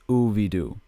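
The name is said with a South Asian pronunciation.

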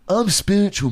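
It is said in a drawn-out, self-important tone. The speaker sounds pretentious and annoying. The speaker calls it wrong. "If you go like, I'm spiritual, man, then it's annoying"

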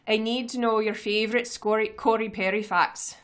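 It is read in a put-on Scottish accent.

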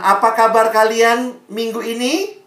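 A silent pause follows the question. Listeners are given time to answer. The speaker calls it right. "Diam dulu"

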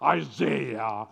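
The name is said with an American pronunciation. "the Americans will say come and they'll say Isaiah"

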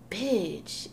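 It is said in an irritated, annoyed tone. The speaker is annoyed. "that mean like I'm irritated or something"

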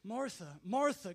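It sounds caring and loving.

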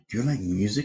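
It is asked in a flirty, date-like way.

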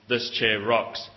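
It is said in a complaining, annoyed way.

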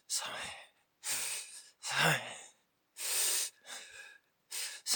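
It is said in a tiny voice.

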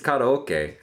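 It is said with a Japanese pronunciation. "the pronunciation is karaoke"

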